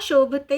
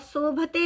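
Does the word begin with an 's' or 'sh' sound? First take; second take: sh; s. First: The word begins with an 'sh' sound. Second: The word begins with a plain 's' sound. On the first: The speaker calls it right. "शोभते होता है" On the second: The speaker calls it wrong. "स न स गलत है ... शोभते नहीं होता"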